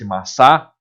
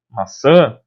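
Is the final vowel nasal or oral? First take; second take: oral; nasal. First: The final vowel is oral, not nasal. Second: The final vowel is nasal. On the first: "fosse maçá" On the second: "se eu não tivesse o tio e a pronúncia não fosse maçã"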